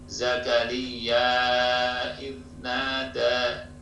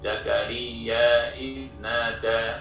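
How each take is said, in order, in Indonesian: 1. Vokal terakhir dari Zakariya dibaca empat harakat. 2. Vokal terakhir dari Zakariya dibaca dua harakat. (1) "atau empat harokat" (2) "boleh dibaca dua"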